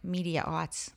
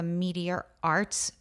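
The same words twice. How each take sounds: First: The words are said quickly and run together. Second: The words are said at a normal, careful pace.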